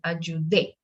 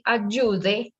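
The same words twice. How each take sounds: First: The stress is on the last syllable. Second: The stress is on the second syllable. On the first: It means I helped, in the past. "we need to go and give the accent to the last syllable" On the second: It is a subjunctive or a polite command. "it sounds like another conjugation"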